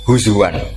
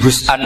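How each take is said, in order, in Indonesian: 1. Bunyi w ada di tengah kata. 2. Hamzah ada di tengah kata. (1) "ditakhul jadi wawu" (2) "ketika jadi hus'an ini hamzah"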